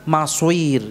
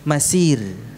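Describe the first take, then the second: First: The s is followed by a rounded w sound. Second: The s is thin and light. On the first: "Tidak pula maswir" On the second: "bukan masir"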